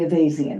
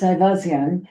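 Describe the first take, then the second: First: The name is said the American way. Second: The name is said the Armenian way. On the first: "in this country, it's basically Avazian" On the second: "in Armenia, it's Ivazian"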